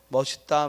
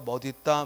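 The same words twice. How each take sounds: First: The middle consonant sounds like an s. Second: The middle consonant sounds like a d. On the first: This is the commonly used form that is allowed. "그냥 연음해서" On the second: This is the standard rule form. "대표음이 일어나서"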